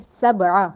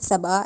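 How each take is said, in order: First: The s-sound is sharp and whistling. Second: The s-sound is soft and weak. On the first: The speaker calls it right. "इस तरह हम करेंगे सबआ" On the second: The speaker calls it wrong. "ज़्यादा नरमी से सबआ ऐसे भी नहीं कह सकते"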